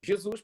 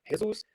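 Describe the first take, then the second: First: Said in the usual way. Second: "Jesus" said the Spanish way, "heh-SOOS"; "Jesus" with the Spanish J and final stress; Spanish pronunciation. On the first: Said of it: "português". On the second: Shown as a demonstration. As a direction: start "Jesus" with an H sound, as in Spanish. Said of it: "no espanhol".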